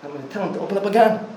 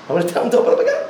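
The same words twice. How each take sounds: First: Said in the usual way. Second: Louder and higher with a laugh; excited, laughing. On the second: Retold or imitated. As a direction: land it with a delighted laugh. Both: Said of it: "he says".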